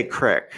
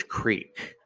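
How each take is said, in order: First: "crick" with a short i, rhyming with brick; "crick", short-i dialect form; regional pronunciation. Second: "creek" with a long ee, drawn out; "creek" said slowly with a long ee; correcting pronunciation. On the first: Shown as a demonstration. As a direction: say "crick" with the short vowel of sick. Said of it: "they always make fun of how I say stuff". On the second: Retold or imitated. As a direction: stretch "creek" to rhyme with cheek. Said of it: "and then they'll be like".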